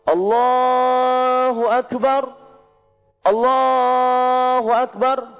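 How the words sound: A breath is taken between the two phrases. "Dua kali nafas kan?"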